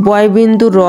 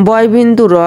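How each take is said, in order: The two takes are said the same way.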